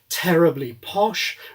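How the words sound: It is said with strong aspiration.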